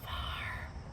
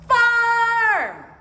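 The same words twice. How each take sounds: First: The word is said quietly. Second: The word is said loudly. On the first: "Can you say farm with a quiet voice?" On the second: "Can you say farm with a loud voice?"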